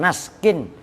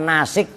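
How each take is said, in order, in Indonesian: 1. Kata ini berakhir dengan -kin tanpa vokal setelah s. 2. Kata ini memiliki vokal i setelah s. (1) "bukan naskin" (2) "bukan nasik juga"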